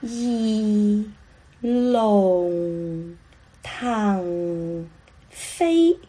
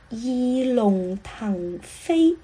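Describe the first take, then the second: First: The phrase is spoken slowly and deliberately. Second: The phrase is spoken at a normal pace. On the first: "我们来练习一下" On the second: "如果我要用正常的语速"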